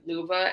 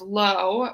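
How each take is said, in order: First: It is said as two syllables, like 'luva'. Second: It is said as one syllable, like 'low'. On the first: "how you actually pronounce it in German" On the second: "which is my maiden name"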